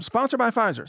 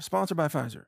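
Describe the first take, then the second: First: Sarcastic ad-read tag, pitched up; mock commercial announcer; mock sponsor read. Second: Said in the usual way. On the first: Shown as a demonstration.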